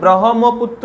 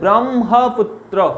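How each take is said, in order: First: The h sound comes before the m sound. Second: The m sound comes before the h sound. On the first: The speaker calls it wrong. "নয়" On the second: The speaker calls it right. "এর উচ্চারণ হবে ব্রহ্মপুত্র"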